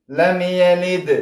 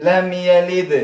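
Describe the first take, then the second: No difference in how they are said.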